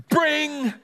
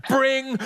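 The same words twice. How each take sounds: First: High, held "bring" of a doorbell; insistent doorbell. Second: Short high "bring" like a doorbell; doorbell imitation. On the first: Neighbour leaves finger on the buzzer, insistent high ring. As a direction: ring longer and more insistently. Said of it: "This ring was more insistent". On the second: Doorbell startles grandson and granny, high short imitated ring. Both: A narrator's reading.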